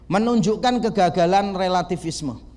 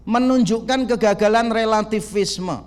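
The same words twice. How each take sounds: First: Said in the usual way. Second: Slower and weightier, each word "Menunjukkan kegagalan relativisme" pressed out; slow emphatic repeat. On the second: Shown as a demonstration. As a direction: repeat the heading slowly so it sinks in. (diulang perlahan dengan penekanan pada "Menunjukkan") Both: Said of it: "repeated for emphasis".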